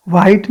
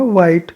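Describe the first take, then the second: First: "वाइट" with a breathy h in the first sound. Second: "वाइट" with a clean w start; silent H. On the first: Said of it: "वाइट नहीं बोला जाएगा". ("वाइट" में ह की आवाज़ के साथ) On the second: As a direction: leave the h out of "वाइट". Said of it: "एच silent आ रहा है सब में". ("वाइट" में ह silent) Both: Shown as a demonstration.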